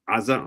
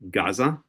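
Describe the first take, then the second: First: The name begins with a throat sound or vowel. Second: The name begins with a hard g sound. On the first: The speaker calls it right. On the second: The speaker calls it wrong.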